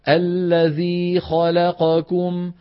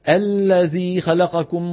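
First: The vowels of the second word have equal length. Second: The second word is suddenly rushed through. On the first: The speaker calls it right. "بدك تسوي بين فتحة الخاء واللام والقاف وضمة الكاف" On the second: The speaker calls it wrong. "تجي فجأة شو تعمل؟ تسرع"

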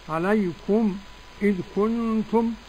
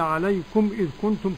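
First: A brief silent break comes before 'idh'. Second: The words run on without a break before 'idh'. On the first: "وفي معانا السكت الخلف بالخلاف" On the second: "كالجميع كالجماعة"

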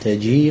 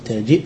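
First: The word ends without a glottal stop. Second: The word ends with a glottal stop. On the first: "وتركه" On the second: "بالهمز الساكن"

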